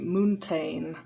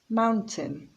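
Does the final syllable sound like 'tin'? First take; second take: no; yes. First: The final syllable does not sound like tin. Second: The final syllable is pronounced like tin. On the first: The speaker calls it wrong. "People often say mountain" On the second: The speaker calls it right. "the ending is pronounced tin"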